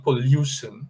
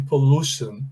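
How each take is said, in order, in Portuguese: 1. A vogal depois do L é um som de yoo. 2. A vogal depois do L é um oo longo. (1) "e não pollution" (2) "ele é pronunciado com som de U mesmo, um U mais alongado"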